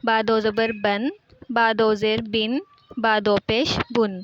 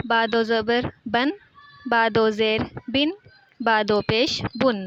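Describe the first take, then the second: First: بن said with a clear ن at the end, steady teaching pace; nunation demo repeated. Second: بن said slowly with a clear ن at the end; nunation demo. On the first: Teacher repeating the n ending for student. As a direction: repeat بن with the final n sound marked. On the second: Teacher showing student the n ending, slow and clear. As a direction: stretch out بن and land the final n sound. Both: Shown as a demonstration. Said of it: "اینڈ پہ اس کے نون کی آواز آئے گی".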